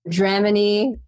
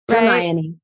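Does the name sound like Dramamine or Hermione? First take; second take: Dramamine; Hermione. First: The name is said so it sounds like Dramamine. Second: The name is said in its usual form. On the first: The speaker calls it wrong. "How do people say it wrong?" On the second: The speaker calls it right. "you said it right"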